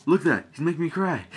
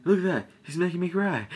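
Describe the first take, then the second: First: Mock whiny complaint. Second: Higher, hammed-up whine; mocking a movie character's whimper; mock whiny complaint. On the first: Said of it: "He's like". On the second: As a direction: whine it like a skinny recruit about to cry. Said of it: "so he's like".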